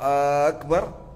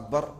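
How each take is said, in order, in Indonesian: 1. Vokal pertama dibaca panjang. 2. Vokal pertama dibaca pendek. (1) "Kalau akbar apakah? Maha besar" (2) "Kalau akbar maha besar"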